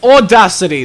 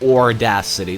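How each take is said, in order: First: The word is said with no R sound. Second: The word is said with an added R sound. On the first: The speaker calls it right. "There's no R" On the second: The speaker calls it wrong. "I just hate how he pronounces it"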